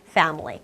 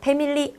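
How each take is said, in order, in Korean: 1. 첫 소리는 입술에 이를 대고 냅니다. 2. 첫 소리는 입술에 이를 대지 않고 냅니다. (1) "윗니로 아랫입술을 물고 family라고 발음해야 돼요" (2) "family 아닙니다"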